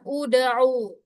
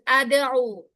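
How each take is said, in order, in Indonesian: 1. Kata ini diawali dengan vokal u. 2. Kata ini diawali dengan vokal a. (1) "ain berharokat dhammah, maka dia dibaca uda'u" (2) "bukan ada'u"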